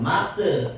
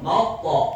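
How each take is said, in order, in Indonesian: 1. Pantulan terakhir terdengar seperti e datar. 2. Pantulan terakhir terdengar seperti o bulat. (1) "jangan mate" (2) "ya jelas monyong mauto"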